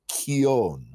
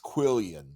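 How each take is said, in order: First: The word is given a Spanish pronunciation. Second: The word is given a common English pronunciation. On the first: This is the original way to say it. The speaker calls it right. "It's a Spanish word, and it's pronounced Quion" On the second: This is how most people say it. The speaker calls it wrong. "it's what everybody pronounces Quillian"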